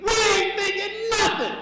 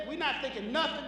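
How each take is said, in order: First: High, loud comic outburst; emphatic shout. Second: Said in the usual way. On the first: Shown as a demonstration. Comic spells out what men really mean, emphatic shout. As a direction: shout it, pitch jumping way up. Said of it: "we mean". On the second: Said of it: "When a man says".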